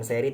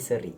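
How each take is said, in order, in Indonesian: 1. Vokal pertamanya e yang jelas dan terbuka. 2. Vokal pertamanya schwa yang lemah. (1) "bukan seri" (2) "tapi seri gitu guys"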